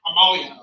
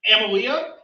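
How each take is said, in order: First: "Amalia" as "uh-MAH-lia"; corrected pronunciation. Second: "Amalia" with a flat "am" at the start; tentative mispronunciation. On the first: Host repeats the corrected name, "Amalia" said "uh-MAH-lia". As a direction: stress an open "MAH" in "Amalia". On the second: Host checks a judge's name, "Amalia" said tentatively as "AM-uh-lia". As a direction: try "Amalia" unsurely, opening like "am". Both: Real, not acted. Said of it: "is that correct?".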